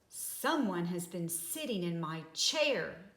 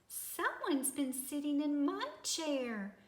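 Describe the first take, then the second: First: It is said in a great big voice. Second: It is said in a wee small voice.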